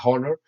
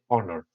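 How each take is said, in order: First: The word begins with an audible H sound. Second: The word begins with a vowel, no H. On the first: The speaker calls it wrong. "you don't say honor, no" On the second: The speaker calls it right. "you say honor, honor, you don't pronounce the H"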